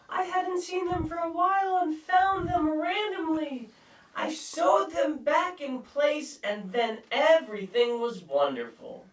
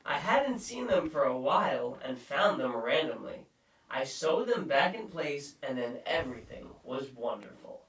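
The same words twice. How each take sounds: First: It is read in a put-on voice. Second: It is read in a normal voice.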